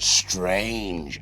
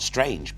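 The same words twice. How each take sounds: First: The word is said with strong, drawn-out emphasis. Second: The word is said plainly, without extra force. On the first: Something truly unusual. "but strange ... really emphasizing the unusualness" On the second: Ordinary oddness. "Not strange"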